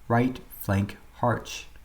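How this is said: Right and flank are split into two steps. The speaker calls it wrong. "you're dragging out the preparatory command into two steps once again"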